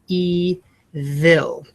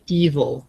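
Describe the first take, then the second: First: The second syllable's vowel is clearly, fully pronounced. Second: The second syllable has a reduced schwa vowel. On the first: This helps with spelling the word. "you want to enunciate evil" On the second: This is the everyday way it is said. "there's a schwa"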